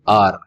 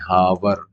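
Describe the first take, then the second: First: The word begins with a vowel, no h. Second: The word begins with an audible h sound. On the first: The speaker calls it right. "यहाँ पे एच silent है तो क्या बोलेंगे?" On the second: The speaker calls it wrong. "कई लोग हावर बोलते हैं, तो हावर रॉन्ग हो जाएगा"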